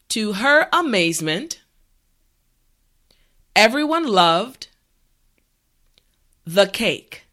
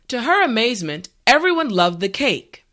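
First: The sentence is said at a slow pace. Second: The sentence is said at a normal pace. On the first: "this time repeat after me" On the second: "the last time at a regular pace"

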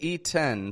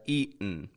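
First: The T is fully released as a T. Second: The T is made as a glottal stop. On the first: The speaker calls it wrong. "We're not going to say eaten" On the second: The speaker calls it right. "but eaten"

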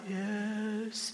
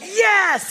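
First: It is said flatly, with little energy. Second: It is said loudly, with enthusiasm.

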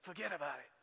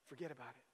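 First: It is said in an Italian-American grandfather's accent. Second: It is said in his plain everyday accent.

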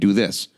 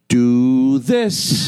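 First: The pitch stays flat at the end. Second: The pitch rises higher at the end. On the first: The speaker calls it wrong. "We were just kind of saying do this" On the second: The speaker calls it right. "It gets higher at the end"

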